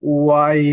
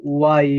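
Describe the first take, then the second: Both takes have the same delivery.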